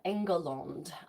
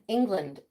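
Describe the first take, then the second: First: It is said in a medieval English pronunciation. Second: It is said in the modern English pronunciation.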